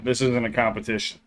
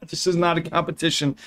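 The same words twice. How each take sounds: First: Said in the usual way. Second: "not" spelled out and pushed higher; stress on not. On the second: Shown as a demonstration. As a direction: firmly insist "This is not a competition".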